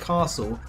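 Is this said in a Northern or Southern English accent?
Southern. It is said in a Southern English accent. "That's how a southern English person such as myself would pronounce those words"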